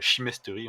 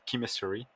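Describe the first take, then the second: First: It is pronounced in a French-sounding way. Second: It is pronounced in an English-sounding way. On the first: The speaker calls it wrong. "en anglais, on dit pas" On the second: The speaker calls it right. "on dit chemistry"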